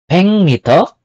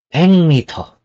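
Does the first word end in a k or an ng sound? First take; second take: ng; ng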